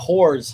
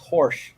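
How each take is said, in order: First: The syllable sounds like 'whores'. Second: The syllable sounds like 'horse'. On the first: The speaker calls it wrong. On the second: The speaker calls it right. "It's horse"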